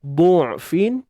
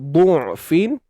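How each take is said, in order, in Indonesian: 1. Vokal pertama ialah bunyi 'u' bulat. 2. Vokal pertama ialah bunyi 'u' bulat.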